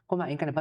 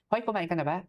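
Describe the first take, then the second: First: It is asked in a calm, ordinary tone. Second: It is asked in an angry-sounding tone.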